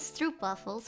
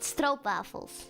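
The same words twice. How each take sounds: First: The first vowel is an English 'oo' sound. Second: The first vowel is a Dutch 'oh' sound. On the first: The speaker calls it wrong. "which is wrong, by the way. It's an it's not an oo" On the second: The speaker calls it right. "if you want to be cool and pronounce it right"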